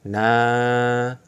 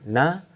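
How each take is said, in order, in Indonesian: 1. Vokalnya dibaca panjang. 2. Vokalnya dibaca pendek. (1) "menjadi na" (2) "Yang awalnya na"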